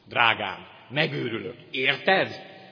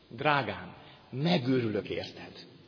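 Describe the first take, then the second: First: A pause comes before a questioning final 'érted'. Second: The phrase runs on without a pause before 'érted'. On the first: The partner is driving the speaker crazy. "máshol van a vesző, máshol a felkiáltójel, máshol a kérdőjel" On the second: The speaker is madly in love with the partner. "A házasság előtt az udvarlás idején ezt mondja"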